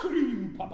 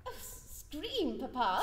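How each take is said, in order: First: Father mimics her innocent question; a hint of scornful mimicry; mocking echo. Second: Feigned innocence. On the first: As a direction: throw her words back mockingly. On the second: Acted. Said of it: "What made you scream".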